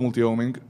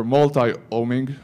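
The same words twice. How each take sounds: First: Said in the usual way. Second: "multi-homing" with multi said as mul-tie; "multi-homing" drawn out, lower, with an "eye" sound ending multi; alternative pronunciation. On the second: Shown as a demonstration. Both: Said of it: "how you guys pronounce it".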